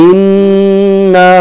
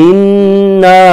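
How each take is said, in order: The two takes are said the same way.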